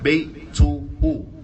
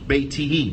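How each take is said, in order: First: The word ends with 'u' vowels: beituhu. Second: The word ends with 'i' vowels: beitihi. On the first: The speaker calls it wrong. "Not Beituhu" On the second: The speaker calls it right. "Beitihi. Not Beituhu"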